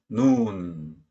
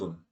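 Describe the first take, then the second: First: The vowel is long. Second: The vowel is short. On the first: It means snow. "스노우 눈은 길어요. 강세가 있어요" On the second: It means eye. "아이 눈은 짧은 소리 그냥 눈"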